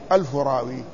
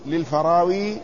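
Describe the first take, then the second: First: الفراوي said as two words, "alfu rawi"; wordplay pronunciation. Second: Said in the usual way. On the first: Shown as a demonstration. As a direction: split الفراوي into "alfu" and "rawi", a thousand narrators. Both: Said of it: "وهذا من باب الجناس".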